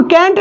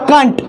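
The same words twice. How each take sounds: First: कैंट said with an open "ae" vowel, as in "cat"; wrong pronunciation. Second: कांट said with an "aa" vowel, not "ae"; correct pronunciation. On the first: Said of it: "इसको कैंट नहीं पड़ेगा". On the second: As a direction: say कांट with a back vowel, like "kaant". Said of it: "क्या पड़ेगा?". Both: Shown as a demonstration.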